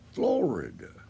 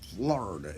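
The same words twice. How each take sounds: First: All syllables are sounded, almost like Spanish. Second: The middle vowel is dropped, like 'Flarda'. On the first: It echoes the original Spanish name. "Florida with like a real. It's almost like the Spanish name" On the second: The speaker is from up north in the state. "they kind of just cut out that uh, the I out of there. It's just Florida, F L A R D A"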